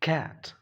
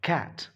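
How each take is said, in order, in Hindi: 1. इस शब्द की शुरुआत k की आवाज़ से होती है। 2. इस शब्द की शुरुआत k की आवाज़ से होती है।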